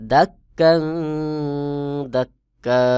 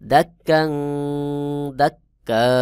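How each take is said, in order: First: The final word ends on a long vowel. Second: The final word ends on a long vowel.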